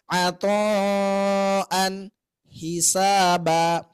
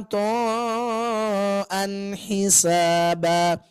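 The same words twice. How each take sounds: First: There is a pause between the two words. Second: The two words run together without a pause. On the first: The speaker calls it wrong. "ada jeda di situ" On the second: The speaker calls it right. "Masih nyambung tuh"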